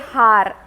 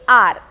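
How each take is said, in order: First: The word starts with an audible h sound. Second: The word starts with a vowel, no h. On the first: The speaker calls it wrong. "we do not say har" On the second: The speaker calls it right. "we say R"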